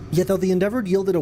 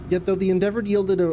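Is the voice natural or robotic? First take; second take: natural; robotic. First: It is said in a natural speaking voice. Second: It is said in a put-on robotic voice.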